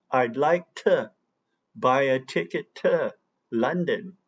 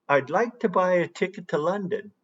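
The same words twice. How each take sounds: First: "to" reduced to a quick schwa, "ticket tə London"; reduced weak "to". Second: Said in the usual way. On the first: Shown as a demonstration. Teacher demonstrates to students the reduced "to" in "ticket to London". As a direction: run "to" into "tə" like natives do. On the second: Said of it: "How about".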